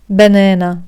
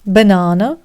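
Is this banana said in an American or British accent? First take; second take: American; British. First: It is said in an American accent. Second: It is said in a British accent. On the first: "Американці кажуть banana" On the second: "Британці кажуть banana"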